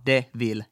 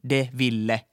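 First: The name ends on the L sound. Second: The name ends with an added vowel after L. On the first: The speaker calls it right. "Sen nimi on Cruella de Vil" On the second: The speaker calls it wrong. "ei de Ville"

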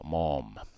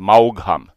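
First: The name is said with an open vowel. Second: The name is said in a Savo dialect way. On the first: The speaker calls it right. "Se on semmoinen avoin Maugham" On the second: The speaker calls it wrong. "mä aina sinnikkäästi sanonut savoksi Maugham"

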